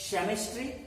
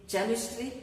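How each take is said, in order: No difference in how they are said.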